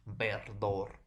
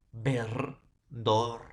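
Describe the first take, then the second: First: Said in the usual way. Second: "ver" and "dor" as two separate beats; split into syllables. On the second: Shown as a demonstration. Teacher breaking a word up for students, syllable by syllable. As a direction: pause between "ver" and "dor". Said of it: "por dos consonantes y una vocal".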